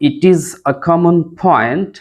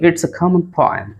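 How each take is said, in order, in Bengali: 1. এটি দুটি আলাদা শব্দ হিসেবে বলা হয়। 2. এটি একটি সংকুচিত এক শব্দে যুক্ত হয়ে বলা হয়। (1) "আপনি বলতে পারেন" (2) "কানেকটিভ স্পিচ ইউজ করেন তাহলে বলবেন"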